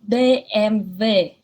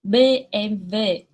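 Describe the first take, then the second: No difference in how they are said.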